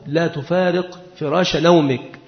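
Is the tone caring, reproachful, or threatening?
caring. It is said in a gentle, caring tone. The listener needs rest and moving would harm him. "إذا كان مريضا فتقول له لا تفارق فراش نومك، إذا كان المخاطب محتاجا إلى الراحة"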